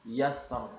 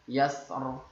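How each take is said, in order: Both takes have the same delivery.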